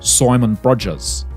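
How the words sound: The vowel in Simon sounds close to 'oy'.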